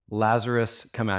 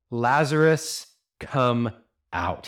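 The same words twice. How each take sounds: First: Said in the usual way. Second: Raging command. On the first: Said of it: "we lose a lot in the original language". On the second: Acted. Preacher as Jesus calling the dead Lazarus out, raging. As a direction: command it with anger, as if against death. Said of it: "There's some anger in this voice".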